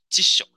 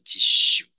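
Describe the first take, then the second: First: The last vowel is short and clipped. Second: The last vowel is drawn out long. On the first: The speaker calls it right. "小小的U，短短的辞書" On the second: The speaker calls it wrong. "很多同学都会念错哎哦。刚才就有蛮多同学念成辞書"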